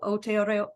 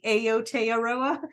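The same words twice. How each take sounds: First: The word begins with an 'oh' sound. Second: The word does not begin with an 'oh' sound. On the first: This is how native speakers say it. The speaker calls it right. "I believe they pronounce it O, so Aotearoa" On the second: This is how the spelling suggests it is said. The speaker calls it wrong. "It looks like it would be Aotearoa"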